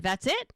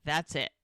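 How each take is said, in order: First: "That's it" pitched up with a rising end; disbelieving question. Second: "That's it" pitched down with a falling end; final statement. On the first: Podcaster voices woman doubting him, "That's it" rising incredulously. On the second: Podcaster voices man ending discussion, "That's it" falling firmly. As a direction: close the matter on a low "That's it". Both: Retold or imitated.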